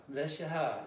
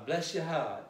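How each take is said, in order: No difference in how they are said.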